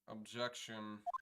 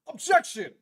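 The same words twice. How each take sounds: First: It is said weakly, without force. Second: It is said forcefully, like Edgeworth.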